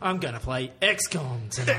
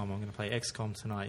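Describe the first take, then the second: First: XCOM is said with strong dramatic emphasis. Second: XCOM is said plainly, without emphasis. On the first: The speaker calls it right. "You've got to say it with some sort of emphasis" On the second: The speaker calls it wrong. "It can't be just XCOM"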